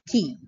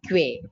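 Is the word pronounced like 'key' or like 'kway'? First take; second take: key; kway. First: It sounds like 'key', with no w sound. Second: It sounds like 'kway', with a w sound. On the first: The speaker calls it right. "we pronounce it as key" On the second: The speaker calls it wrong. "not quay"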